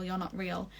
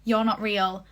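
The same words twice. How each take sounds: First: You're not real trailing off quietly; a frightened murmur, dropping away; half-hearted scared retelling; fading mock panic. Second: You're not real called out a bit louder; a retold shout, only lightly raised; half-hearted yell of denial; mild mock yell. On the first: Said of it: "they start freaking out". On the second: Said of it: "Charlie yell".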